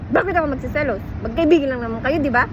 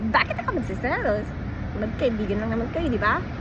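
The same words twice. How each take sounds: First: It is said in an angry, irritated tone. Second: It is said in a flirtatious, teasing tone.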